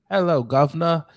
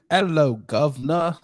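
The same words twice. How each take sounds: First: Lightly mocked British accent on Hello, governor. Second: Mock British accent, slower with a rising end. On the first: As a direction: toss off a cheeky mock British greeting. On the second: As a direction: draw out a cheeky mock British greeting. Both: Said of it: "he got a British accent".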